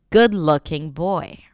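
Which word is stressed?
good. The stress falls on good. The speaker calls it right. "When it becomes the adjective and it's hyphenated, good-looking boy, right?"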